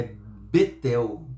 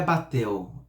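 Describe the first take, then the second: First: Betel slow, with e in the first syllable; Hebrew construct vowel. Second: Batel with an open a; wrong vowel. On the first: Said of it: "é Betel". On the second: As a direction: say Batel with a clear open a in the first syllable. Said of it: "não é Batel". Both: Shown as a demonstration.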